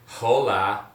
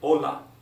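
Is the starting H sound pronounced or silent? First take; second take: pronounced; silent. First: The word starts with an audible H sound. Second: The word starts directly with the vowel. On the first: The speaker sounds like an English speaker. The speaker calls it wrong. "so you don't say hola. I'm from America" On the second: The speaker shows some level in Spanish. The speaker calls it right. "just avoid pronouncing the H and just go for hola"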